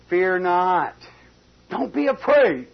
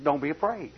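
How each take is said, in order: First: Loud and high, a bold proclamation; Don't be afraid, ringing out loud; preached reassurance. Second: Said in the usual way. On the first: Acted. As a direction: cry it out to steady the servant. Elisha reassuring servant, preached.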